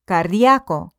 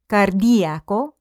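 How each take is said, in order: First: The i and a blend into one syllable. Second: The i and a form two separate syllables.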